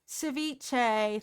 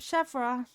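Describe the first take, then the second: First: The word ends in a 'chay' sound. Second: The word ends in a 'ra' sound. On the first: The speaker calls it right. "Thank you" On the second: The speaker calls it wrong. "I've been saying wrong the whole time"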